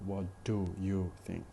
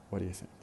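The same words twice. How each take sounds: First: "What do you think?" with full do and you, words separated; careful pronunciation. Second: "What do you think?" quick and linked, do and you weak; connected speech. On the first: Teacher shows what not to say in conversation, in careful pronunciation. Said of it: "Instead of saying". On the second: Teacher shows the usual conversational way, in connected speech. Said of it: "So this is the way". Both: Shown as a demonstration.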